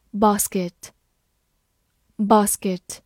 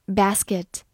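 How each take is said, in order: First: BASKET with a British long "ah" in the first syllable; British pronunciation. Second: BASKET with an American short "a" as in "cat"; American pronunciation. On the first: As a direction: say "basket" slowly, British-style, as BAHS-kit. 非美式读法，与随后美式发音对照. (英式发音，basket 的 a 读长音“啊”) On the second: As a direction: say "basket" the American way, BASS-kit. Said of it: "美式发音". (美式发音，basket 的 a 读作 cat 中的 a) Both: Shown as a demonstration.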